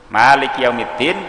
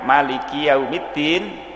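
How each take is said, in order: First: The vowel after the m is long. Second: The vowel after the m is short. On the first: God is the owner of the Day of Judgment. "berarti zat yang memiliki hari pembalasan" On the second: God is the king of the Day of Judgment. "Kalau dibaca pendek mimnya"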